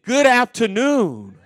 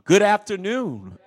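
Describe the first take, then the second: First: It is said with strong, emphatic energy. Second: It is said with ordinary, low energy.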